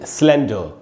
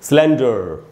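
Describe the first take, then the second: First: The final r is silent, ending on a schwa. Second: The final r is pronounced with a curled tongue. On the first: "British English में" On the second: "American English में"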